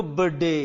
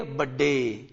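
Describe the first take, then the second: First: बर्थडे said low as "bəde", no r; silent r. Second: बर्थडे said low and soft as "bədde"; बर्थडे with no r, th merged into the d; silent r and th. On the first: Teacher repeating the answer to the class. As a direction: drop the r in बर्थडे, keep it short. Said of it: "क्या बोलोगे इसको". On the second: Teacher modelling the word softly for the class. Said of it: "तो क्या बोलोगे". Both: Shown as a demonstration.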